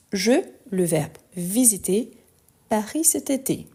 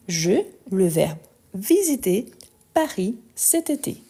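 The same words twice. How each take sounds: The two takes are said the same way.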